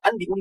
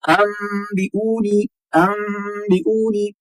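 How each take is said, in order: First: अनबिऊनी with a plain, unheld N before B; ordinary spoken अनबिऊनी, no nasal hum; clear N. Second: अनबिऊनी chanted as ammm-bi-oo-nee; very slow अनबिऊनी with held nasal M; N turned to M. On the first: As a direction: say अनबिऊनी as an-bi-oo-nee, quickly. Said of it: "अनबिऊनी नहीं पढ़ेंगे". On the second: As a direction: hum a long M before the B in अनबिऊनी. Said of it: "मीम से बदलकर हम पढ़ते". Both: Shown as a demonstration.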